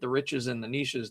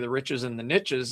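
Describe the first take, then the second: First: Niches is said not rhyming with riches. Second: Niches is said to rhyme with riches. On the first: The speaker calls it wrong. "doesn't sound as good" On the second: The speaker calls it right. "it works great"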